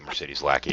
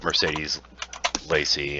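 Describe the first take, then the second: First: The surname is said with a k sound. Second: The surname is said without a k sound. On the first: The speaker calls it wrong. "I always say this wrong. I would say" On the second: The speaker calls it right. "It's technically Lacey"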